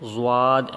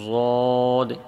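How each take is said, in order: First: The vowel sound shifts as the mouth changes. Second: The vowel sound stays the same throughout. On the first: The speaker calls it wrong. "ऐसा नहीं बोलेंगी" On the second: The speaker calls it right. "इस तरीके से शुरू से लेकर आखिर तक हर्फ की आवाज़ एक जैसी रहेगी"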